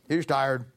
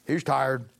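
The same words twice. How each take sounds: The two takes are said the same way.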